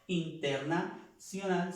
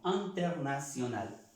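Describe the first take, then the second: First: Internacional said with in, slow and higher; wrong pronunciation. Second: Internacional said anternasjonal, in as a; right pronunciation. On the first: Teacher shows the wrong way to say it. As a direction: say internacional with a plain in. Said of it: "No diremos". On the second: Teacher shows the French way to say it. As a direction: say internacional starting with an. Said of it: "sino internacional". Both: Shown as a demonstration.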